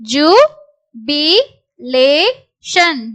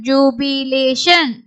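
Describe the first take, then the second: First: Slow syllables with gaps between. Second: Said in the usual way. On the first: Shown as a demonstration. Teacher sounds out a word for learners, syllable by syllable. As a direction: break "Jubilation" into four separate syllables.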